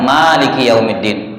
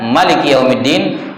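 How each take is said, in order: First: The first vowel is long. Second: The first vowel is short.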